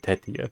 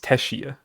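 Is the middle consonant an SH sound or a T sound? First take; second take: T sound; SH sound. First: The middle consonant is a plain T sound. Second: The middle consonant is an SH sound. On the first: This is the original Japanese reading. "in Japanese you would just say Tetia" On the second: This is an English-style reading. "where the T does the, the S H sound"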